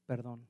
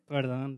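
First: It is said flatly, without a smile. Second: It is said with a forced, fake smile.

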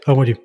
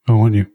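First: It is said with some enthusiasm. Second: It is said flatly and unconvincingly. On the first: The speaker calls it wrong. "That has more enthusiasm" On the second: The speaker calls it right. "it is the least convincing"

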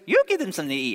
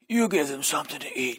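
First: It is said in a high cartoon mouse voice. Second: It is said in a tough gangster-style voice. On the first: "if he was just joking, did a Mickey Mouse voice" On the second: "What would it be like if he used like a mafia voice?"

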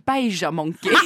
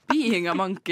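First: 'Being a' is blended into a short 'Beija'. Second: 'Being a' is said fully as separate words. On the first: The speaker calls it wrong. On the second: The speaker calls it right.

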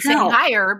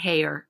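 First: The name is said the American way. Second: The name is said the British way. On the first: "we grew up our entire life ... saying Heyer" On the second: "he was saying Heyer, and I think that's how we're supposed to pronounce it"

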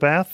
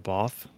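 First: It is said with an American pronunciation. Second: It is said with a British pronunciation. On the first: This is the speaker's own way of saying it. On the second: This is how the local guest says it.

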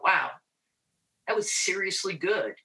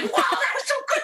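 First: It is said flat and low-energy. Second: It is said excited and high-energy.

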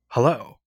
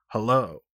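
First: It is said in a normal voice. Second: It is said in a lowered voice.

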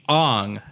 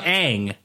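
First: The name has a more Japanese-style pronunciation. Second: The name has its plain English pronunciation. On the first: The speaker calls it wrong. "I want to put more Japanese pronunciation on it" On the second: The speaker calls it right. "Because it's Aang"

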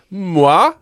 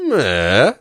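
First: The word has a high then mid tone. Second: The word has a high then low tone. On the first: It means good. "met een hoog-mid toonpatroon betekent in het Igbo goed" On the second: It means knife. "maar met een hoog-laag toonpatroon"

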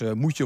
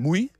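First: The two words are said separately and in full. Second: The two words are merged into one syllable.

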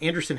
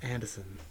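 First: The R in the middle is clearly pronounced. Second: The R in the middle is dropped. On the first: The speaker calls it right. "Anderson has an R" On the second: The speaker calls it wrong. "It's not Anderson"

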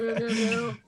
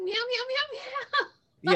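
First: It is said at a lower pitch. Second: It is said at her normal higher pitch.

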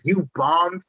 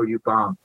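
First: It is said brightly, with a smiling tone. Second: It is said bluntly, with a harsh tone. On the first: It sounds like a compliment. "she said it with the energy of a compliment" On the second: It is a plain criticism. "normally someone would be like"

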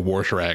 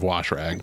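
First: Wash is said with a country, backwoods pronunciation. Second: Wash is said with a plain standard pronunciation. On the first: It is the habit picked up growing up. The speaker calls it wrong. "I still say wash rag" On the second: It is the form the speaker tried to switch to. The speaker calls it right. "instead of wash rag"

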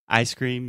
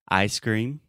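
First: It is said fast. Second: It is said very slowly.

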